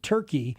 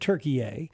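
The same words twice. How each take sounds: First: The name is said the English way, as turkey. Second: The name is said the Turkish way, as Türkiye. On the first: This is the outsiders' version of the name. The speaker calls it wrong. "the Americanized or the anglicized Turkey" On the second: This is what the people call themselves. The speaker calls it right. "that's how you pronounce it in their own language"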